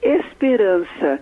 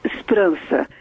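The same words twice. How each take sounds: First: Every vowel is fully pronounced, Brazilian style. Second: Unstressed vowels are dropped, European Portuguese style. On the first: This is how Brazilians say it. "Nós dizemos esperança" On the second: This is how people in Portugal say it. "eles apagam praticamente todas as vogais átonas. Eles dizem esperança"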